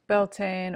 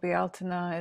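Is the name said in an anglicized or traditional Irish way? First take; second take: anglicized; traditional. First: The name is said in an anglicized English way. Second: The name is said in a traditional Irish way.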